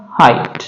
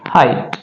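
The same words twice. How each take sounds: First: हाइट said as "hait" with a silent gh; हाइट pronounced "hait", no g sound; word said clearly. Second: हाइट repeated as "hait", gh silent; हाइट pronounced "hait", no g sound; word said clearly. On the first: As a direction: give the answer हाइट plainly, gh silent. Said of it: "इसका उच्चारण क्या होगा?". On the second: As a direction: repeat the answer हाइट with a falling close. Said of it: "क्या उच्चारण रहेगा?". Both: Shown as a demonstration.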